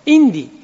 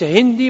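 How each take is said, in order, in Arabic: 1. تبدأ الكلمة مباشرة بحرف علة. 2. تبدأ الكلمة بصوت الهاء. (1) "وينطقها إندي" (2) "تقولها للهندي أنت هندي ما يفهم"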